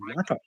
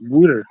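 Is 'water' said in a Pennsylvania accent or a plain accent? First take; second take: plain; Pennsylvania. First: It is said in a plain accent. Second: It is said in a Pennsylvania accent. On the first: "across here we call water water" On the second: "Bob's accent. He's in Pennsylvania. He's like Wooter"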